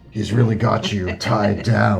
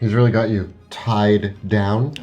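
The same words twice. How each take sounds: First: It is said in a gravelly dragon voice. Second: It is said in a normal speaking voice.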